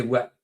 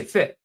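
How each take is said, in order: First: "what" said as "wit", with a w; Glasgow "wit". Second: "fit" with an f, meaning what; Doric "fit". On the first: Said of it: "you would say". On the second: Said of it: "I would say". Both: Shown as a demonstration.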